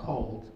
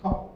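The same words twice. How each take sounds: First: The final d is clearly pronounced at the end. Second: The final d is dropped, sounding like Cole. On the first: The title means low temperature. "it could be Bob Cole or cold" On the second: The title can also be heard as a name. "some people would say, when they pronounce the word cold, they say cold"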